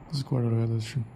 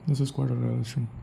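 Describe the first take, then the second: The two takes are said the same way.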